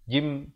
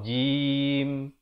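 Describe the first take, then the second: First: The final m is released quickly. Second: The final m is held closed longer. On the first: The speaker calls it wrong. "Jangan cepat sangat buka jim. Tak mau" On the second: The speaker calls it right. "Baru berhenti. Sekurang-kurangnya dua harakat"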